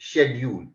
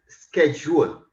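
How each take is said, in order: First: It is said with a British pronunciation. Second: It is said with an American pronunciation. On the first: "coming to the British English, it is schedule" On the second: "coming to the American English, uh, it is schedule"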